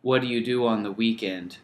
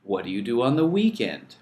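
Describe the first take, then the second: First: "What do you do on the weekend?" with what stressed and falling; wrong intonation. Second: "What do you do on the weekend?" with weekend stressed and rising then falling; right intonation. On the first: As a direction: lead with "what" as the example to avoid. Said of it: "It's not". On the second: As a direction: lift "weekend" as the correct model. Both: Shown as a demonstration.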